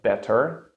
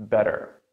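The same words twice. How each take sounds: First: "better" with a crisp T in the middle; true T, wrong here. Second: "better" with the T as a quick D, "bedder"; American flap T. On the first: Teacher shows what American English avoids, crisp T. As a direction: hit a released T in "better". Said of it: "It's not better". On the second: Teacher gives the American version, flap T. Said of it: "in American English sounds like". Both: Shown as a demonstration.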